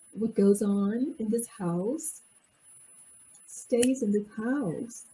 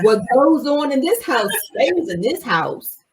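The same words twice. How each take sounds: First: It is said in a calm, mild tone. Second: It is said with forceful, intimidating energy. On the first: It is a harmless remark about family privacy. "it's not like the person said it like this" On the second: It is a threat meant to bully. "There is energy with that that is intimidating"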